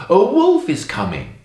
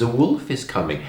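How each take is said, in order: First: Raised, louder storybook call; acted shout. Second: Said in the usual way. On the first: A narrator's reading. Bored shepherd boy tricking the villagers, shouting. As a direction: call out a false alarm. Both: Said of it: "he shouts".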